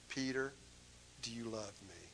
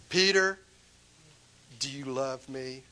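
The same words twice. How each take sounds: First: Soft, hushed asking; a quiet, loving question; tender question. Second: Louder on Peter, then easing back; a firmer second asking; pressing question. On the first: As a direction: ask gently, almost under the breath. Jesus asks Peter, retold gently. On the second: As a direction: call his name out, then ask. Jesus asks again, louder. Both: Acted.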